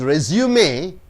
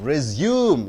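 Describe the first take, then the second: First: The stress is on the first syllable. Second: The stress is on the second syllable. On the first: It is a noun meaning a record of work experience. "means your work experience" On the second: It is a verb meaning to continue. "You stress on the U, it becomes to continue"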